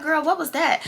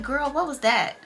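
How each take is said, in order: First: Put-on girl what was that with a falling, puzzled tune; disbelieving question to a friend; baffled girl what. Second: Plain. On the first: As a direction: ask it half laughing in confusion. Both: Shown as a demonstration. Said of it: "I just said it just like that".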